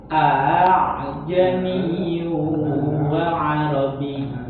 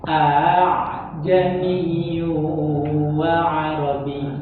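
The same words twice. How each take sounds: Both takes have the same delivery.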